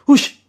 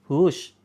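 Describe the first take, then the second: First: It is said loudly and forcefully. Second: It is said softly and gently. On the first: The chasing is firm enough to work. The speaker calls it right. "Harus dengan keras" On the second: The chasing is too weak to work. The speaker calls it wrong. "Kalau kita ngusir ayam pelan-pelan"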